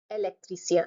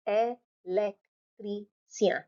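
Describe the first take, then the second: First: Said in the usual way. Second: "Électricien" as ay ... lek ... tree ... syan; very slow, a gap after each part of "Électricien"; four separate syllables. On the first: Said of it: "pronouncing the word directly". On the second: Shown as a demonstration. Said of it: "Four syllables".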